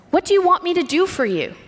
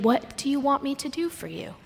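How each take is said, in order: First: Higher, fast, impatient question; impatient demand. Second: Soft, tender question; gentle. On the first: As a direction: fire it off like a busy man interrupted. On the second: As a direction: ask it softly as an open invitation. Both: Shown as a demonstration. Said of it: "read these stories with a gentleness".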